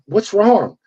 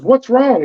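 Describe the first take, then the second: First: Said in the usual way. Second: "What's wrong?" echoed back much higher and sharper; female agent mimicked. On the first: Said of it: "And I'm like". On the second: Mimicking the nervous female agent echoing his question, higher. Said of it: "She goes".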